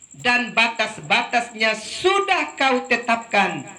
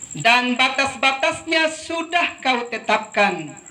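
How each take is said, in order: No difference in how they are said.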